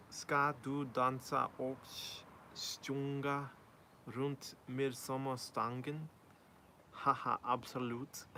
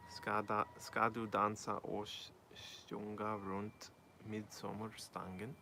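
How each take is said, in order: First: Slow careful Swedish, "Ska du dansa och sjunga runt midsommarstången" with rising end; reading Swedish aloud. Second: Slower, quieter retry of "ska du dansa och sjunga runt midsommarstången"; halting Swedish, "sjunga" with a "sh" sound, trailing quiet rise; rereading Swedish. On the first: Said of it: "That Swedish was not too bad". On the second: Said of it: "I don't know what you mean". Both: Shown as a demonstration.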